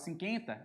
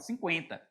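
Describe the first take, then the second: First: The u after the q is silent. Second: The u after the q is pronounced. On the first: The speaker calls it wrong. "você não fala cinquenta" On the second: The speaker calls it right. "você fala cinquenta. Então, o U é pronunciado"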